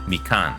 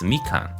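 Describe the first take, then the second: First: The pitch starts low and then goes high. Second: The pitch starts high and then goes low. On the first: The speaker calls it wrong. "we've definitely been saying it wrong" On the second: The speaker calls it right. "it's high then low as opposed to low then high"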